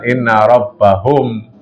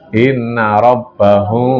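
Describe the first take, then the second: First: The m is clear, with lips fully closed. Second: The m is muffled, with lips slightly apart. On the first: The speaker calls it wrong. "bukan inna rabbahum" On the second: The speaker calls it right.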